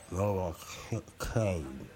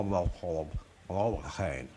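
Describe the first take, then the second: First: Novocaine said very slowly with a numb mouth; numb from the dentist. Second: Numb from the dentist. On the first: Shown as a demonstration. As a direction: struggle slowly through the word with a numb tongue. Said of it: "It's hard word to say when you got a mouthful of Novocaine". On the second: Real, not acted. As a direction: mouth numb with Novocaine, words slurred. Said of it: "I apologize so much for the way I'm sounding".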